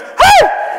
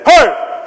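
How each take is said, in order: First: It is said in a high, unmanly voice. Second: It is said in a deep, manly voice.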